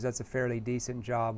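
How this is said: The tone is fast, flat and monotone. The speaker calls it wrong. "that's too monotone. It's too flat. There's no emotion there"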